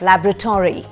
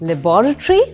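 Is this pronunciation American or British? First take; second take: American; British. First: It is said in an American accent. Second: It is said in a British accent. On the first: "That's the American pronunciation" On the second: "which is the British pronunciation"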